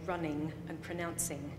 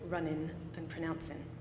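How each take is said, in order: First: The word endings are pronounced in a formal way. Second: The word endings are pronounced in a casual way. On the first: The speaker seems more educated. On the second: The speaker seems less educated.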